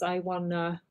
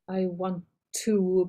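First: Want and to merge into one reduced word. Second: The words want and to are said separately.

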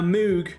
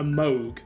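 First: The vowel does not rhyme with Vogue. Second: The vowel rhymes with Vogue. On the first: The speaker calls it wrong. "I'm pronouncing it horrifically" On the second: The speaker calls it right. "It's actually like a Moog, like Vogue"

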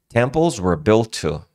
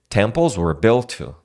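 Both takes have the same delivery.

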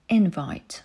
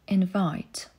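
First: The stress is on the first syllable. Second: The stress is on the second syllable. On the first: It is used as a noun. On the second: It is used as a verb. "Zaprosić"

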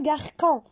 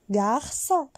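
First: The middle consonant is a hard k sound. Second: The middle consonant is a soft s sound. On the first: The speaker calls it wrong. "on ne dit pas garçon. Parce qu'il y a la cédille" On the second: The speaker calls it right. "Ça donne aussi son. Comme par exemple, garçon"

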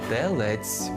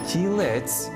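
First: The first vowel sounds like 'e'. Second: The first vowel sounds like 'i'. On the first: The speaker calls it right. "теляти з Е" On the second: The speaker calls it wrong. "не Тілець"

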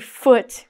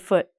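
First: The final T is clearly pronounced. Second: The final T is cut off and not released. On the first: The speaker calls it wrong. "We don't say foot" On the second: The speaker calls it right. "we say foot"

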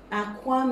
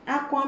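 First: It carries the tone pattern of 'egg'. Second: It carries the tone pattern of 'cry'. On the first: The word means an egg. "Aqua means an egg" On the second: The word means to cry. "Aqua means to cry"

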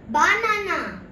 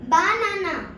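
No difference in how they are said.

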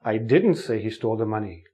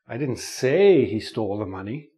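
First: The stress falls on the word 'didn't'. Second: The stress falls on the word 'say'. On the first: The speaker denies ever saying it. "You think I said it, but I didn't say it" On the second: The speaker only hinted it without saying it. "Maybe I hinted it"

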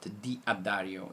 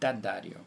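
First: The name is split into two separate parts. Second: The name is said as one joined word. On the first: The speaker calls it wrong. "not D'Addario" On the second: The speaker calls it right. "Like that, one word"

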